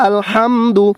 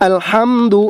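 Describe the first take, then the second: No difference in how they are said.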